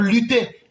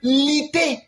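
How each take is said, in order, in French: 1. Il est prononcé avec la prononciation standard du français. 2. Il est prononcé en imitant l'accent français congolais.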